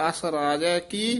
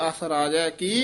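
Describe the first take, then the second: The two takes are said the same way.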